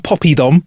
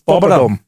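First: The middle vowel sounds like 'ee'. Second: The middle vowel sounds like a weak 'uh'. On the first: The speaker calls it wrong. "Nah, mate, there's no Y in it" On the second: The speaker calls it right. "It's poppadom"

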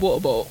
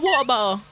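First: It is said in a posh accent. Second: It is said in a Yam Yam accent.

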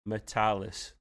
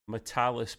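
First: The name is said slowly. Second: The name is said at normal speed.

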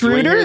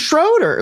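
First: The name is said with its original pronunciation. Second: The name is said with an American pronunciation. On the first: "Is that how they officially pronounce it?" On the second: "which is how you would pronounce it if you're just a normal American"

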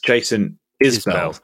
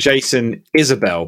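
First: The surname is said with two syllables. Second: The surname is said with three syllables. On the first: The speaker calls it right. "It's [name]" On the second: The speaker calls it wrong. "I thought for a long time it was Jason Isabel, but it's not"

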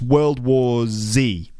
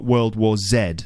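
First: The final letter is said as 'zee'. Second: The final letter is said as 'zed'. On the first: The speaker calls it right. "it's World War Z" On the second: The speaker calls it wrong. "Not World War Z"

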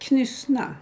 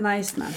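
First: The name is read out as it is spelled. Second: The name is said the local, accepted way. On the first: This is how the name is written. "Och det stavas" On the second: This is what the place is called. "Men det heter Najsna"

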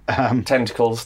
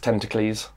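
First: It is said in the ordinary English way. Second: It is said like an ancient Greek name.

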